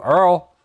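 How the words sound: It is said in a Cajun bayou accent.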